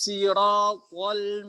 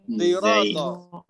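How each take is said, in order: First: It begins with a light, plain s sound. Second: It begins with a sound blending s and z. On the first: This is an alternative reading by a particular transmitter. "sodnya dibaca sin" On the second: This is an alternative reading by another reciter. "Blenderan antara sod dengan zai"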